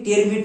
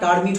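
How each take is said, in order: First: The first vowel sounds like 'eh'. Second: The first vowel sounds like 'ar'. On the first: The speaker calls it wrong. "টেরমিট না" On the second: The speaker calls it right. "টার্মিট হবে"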